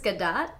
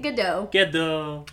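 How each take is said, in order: First: The name is said the Israeli way. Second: The name is said the French way. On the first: The speaker calls it right. "did you know that her last name is Gadot?" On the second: The speaker calls it wrong. "definitely been pronouncing it Gadot"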